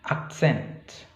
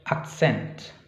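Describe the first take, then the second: No difference in how they are said.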